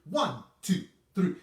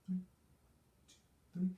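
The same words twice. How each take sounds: First: The counting is said loudly. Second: The counting is said softly.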